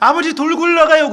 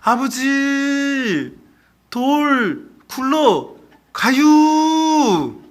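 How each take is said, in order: First: It is said at normal speed in standard Korean. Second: It is said slowly in a Chungcheong accent.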